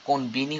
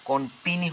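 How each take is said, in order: First: The middle consonant is a b sound. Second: The middle consonant is a p sound. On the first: The speaker calls it right. "কনবিনি হবে" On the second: The speaker calls it wrong. "কনপিনি হবে না"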